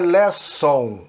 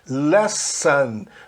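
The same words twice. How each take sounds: First: The final syllable sounds like 'on'. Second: The final syllable sounds like 'an'. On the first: The speaker calls it wrong. "não é lesson" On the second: The speaker calls it right. "a pronúncia é an"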